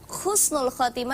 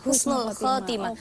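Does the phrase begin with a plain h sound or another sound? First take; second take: another sound; plain h. First: The phrase begins with a different, non-plain h sound. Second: The phrase begins with a plain, soft h sound. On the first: The meaning is no longer good. The speaker calls it wrong. "maknanya bukan baik lagi" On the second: A good ending. The speaker calls it right. "Kalau H husnul khotimah"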